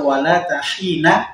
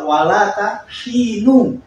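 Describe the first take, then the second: First: The second word ends with an 'a' vowel. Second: The second word ends with a 'u' vowel. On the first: The word is the predicate and the subject is dropped. "Waktu kan dipatah kan?" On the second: The word is the subject and the predicate is dropped. "ini kan di dhammah"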